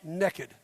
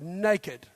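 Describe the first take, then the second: First: It is said in a Southern accent. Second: It is said in a standard accent.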